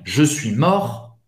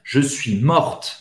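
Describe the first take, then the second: First: "mort" stopping on the R, without any T; silent T. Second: "morte" with the T heard after the R; pronounced final T. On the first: Teacher recapping the man's form, "mort" with silent T. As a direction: drop the T from the end of "mort". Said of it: "Você não vai pronunciar o T". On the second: Teacher recapping the woman's form, "morte" with final T sounded. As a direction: say the T at the end of "morte". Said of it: "Você vai pronunciar". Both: Shown as a demonstration.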